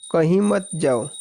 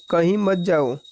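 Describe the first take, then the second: No difference in how they are said.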